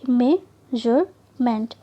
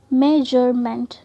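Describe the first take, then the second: First: measurement very slowly, with long pauses between three syllables. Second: measurement said slowly, syllables only slightly apart; measured, joined-up measurement, each syllable clear; lightly separated syllables. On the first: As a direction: break measurement into three detached beats. (Measurement के तीन syllable, रुक-रुक कर) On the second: (measurement धीरे, हल्का-सा तोड़कर) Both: Shown as a demonstration. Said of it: "मेंट को हमने अलग रखा".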